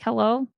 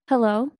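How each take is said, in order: First: It is said in her normal casual voice. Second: It is said in a put-on polite phone voice.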